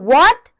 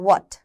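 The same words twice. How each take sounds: First: It is exclaimed forcefully, with strong emotion. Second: It is said flatly, without extra force. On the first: The speaker calls it right. "थोड़ा सा जोर दिया चीजों के ऊपर" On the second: The speaker calls it wrong. "What नहीं"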